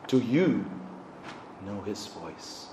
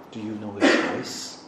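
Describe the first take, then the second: First: Much softer, slowed-down repeat; quiet, searching question; hushed. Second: Said in the usual way. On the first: Acted. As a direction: let it fall to a near whisper.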